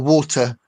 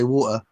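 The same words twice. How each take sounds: First: It is said in a posh accent. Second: It is said in a Portsmouth accent. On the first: "if you're posher" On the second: "we say water, what like butter"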